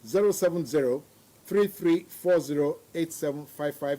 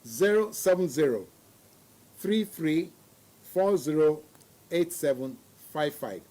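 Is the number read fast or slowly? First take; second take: fast; slowly. First: The number is read at a faster pace. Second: The number is read slowly.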